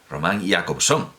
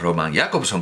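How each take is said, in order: First: The stress falls on the second syllable. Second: The stress falls on the first syllables. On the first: This is how Russians say it. "los rusos dicen Roman" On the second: This is how Europeans and Czechs say it. "como hacemos en Europa ... se acentúan en la primera sílaba"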